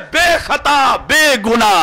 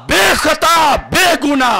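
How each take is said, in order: Both takes have the same delivery.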